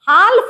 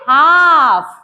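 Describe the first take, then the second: First: The L sound is pronounced. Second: The L sound is silent. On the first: The speaker calls it wrong. "हाल्फ नहीं पढ़ेंगे" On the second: The speaker calls it right. "एल को नहीं पढ़ना है"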